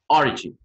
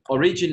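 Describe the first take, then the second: First: The stress is on the first syllable. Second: The stress is not on the first syllable. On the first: The speaker calls it right. "with the stress at the beginning" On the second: The speaker calls it wrong.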